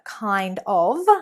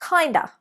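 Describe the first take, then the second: First: The final word is a full 'of'. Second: The final word is reduced to a schwa. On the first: "Instead of kind of" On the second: "we've replaced of with an a sound, the schwa"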